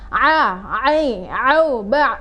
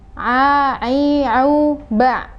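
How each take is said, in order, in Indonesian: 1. Bunyi tenggorokan sangat dilebih-lebihkan dan berlebihan. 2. Bunyi tenggorokan diucapkan dengan sedang, tidak berlebihan. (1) "penyebutan berlebihan" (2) "Jadi pengucapannya adalah seperti ini"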